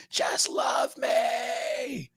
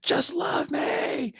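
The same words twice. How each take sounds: First: High, very slow drawn-out cry; hammed-up anguished cry; mock desperate yell. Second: High, slow, breathy whispered plea; hammed-up whispered begging; mock desperate plea. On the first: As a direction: wail it out slowly, much higher. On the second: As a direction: beg in a strained whisper, much higher. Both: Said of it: "punching himself in the face hella hard, going".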